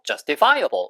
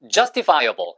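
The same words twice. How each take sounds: First: The main stress falls late in the word. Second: The main stress falls early in the word. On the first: "뒤에 둬도 상관없어요" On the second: "액센트는 앞에 둬도 되고"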